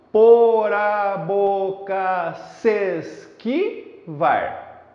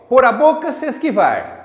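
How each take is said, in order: First: "Por a boca se esquivar" very slow, each syllable drawn out; syllable-by-syllable scansion. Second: Said in the usual way. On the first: Shown as a demonstration. Teacher counting verse syllables for students, slow and syllabified. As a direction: chant out po-ra-bo-ca-ses-qui-var evenly, one long beat each. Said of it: "pronunciando normalmente, eu tenho assim". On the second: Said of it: "pronunciando normalmente".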